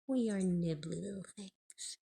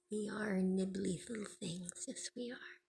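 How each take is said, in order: First: Said in the usual way. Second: Soft, breathy pet talk. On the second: Real, not acted. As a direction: whisper sweetly to a pet. Baby talk to bird.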